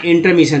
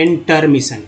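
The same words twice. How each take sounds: First: Said in the usual way. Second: इंटरमिशन split into its pieces, slower; teacher's piece-by-piece इंटरमिशन; broken into parts. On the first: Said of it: "तो एक साथ इंटर भी ले सकते हैं". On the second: Shown as a demonstration. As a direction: separate "in", "ter" and "mission" in इंटरमिशन. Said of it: "इन दो तोड़ के भी ले सकते हैं".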